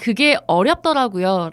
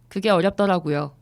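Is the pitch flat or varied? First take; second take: varied; flat. First: The pitch moves, with intonation near the start. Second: All syllables are on one flat pitch. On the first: "억양을 앞쪽에다 넣으라고" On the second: "요런 느낌으로 이렇게 진짜 영혼이 없죠"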